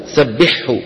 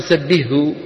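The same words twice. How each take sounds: First: "سبحه" with ح and ه both heard, sabbiḥhu; correct clear pronunciation. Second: "سبحه" with the ه swallowed into the ح; wrong merged pronunciation. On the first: Teacher giving the correct clear form. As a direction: sound the ح then a clear ه. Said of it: "وإنما يقولون". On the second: Teacher mimicking the common wrong merge. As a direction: say "سبحه" as sabihu, no separate ه. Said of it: "ما حدا بيقول". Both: Shown as a demonstration.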